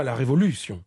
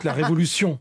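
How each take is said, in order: First: "révolution" with the accent before the last syllable, Italian-like; wrong-syllable stress. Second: "révolution" accented on its last syllable, "TION"; final-syllable stress. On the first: Linguist showing what French doesn't say, "révolution" stressed on LU. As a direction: hit "LU" in "révolution", let the ending drop. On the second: Linguist giving the French way, "révolution" stressed on the last syllable. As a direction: land on the end of "révolution". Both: Shown as a demonstration. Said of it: "on accentue souvent la dernière syllabe".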